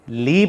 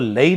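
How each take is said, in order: First: The word has only an 'i' vowel: 'lee'. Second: The word starts with an 'a' vowel: 'la-ee'. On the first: The speaker calls it right. "बल्कि ली पढ़ेंगे" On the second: The speaker calls it wrong. "अब हम इसको लई नहीं पढ़ेंगे"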